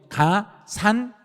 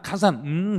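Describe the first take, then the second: First: The final syllable is pronounced clearly and fully. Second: The final syllable is blurred into a mumble. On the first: The speaker calls it right. "발음 정확해요" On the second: The speaker calls it wrong. "그냥 가산 음 해버리면 시험에서는 바로 틀려버린 거예요"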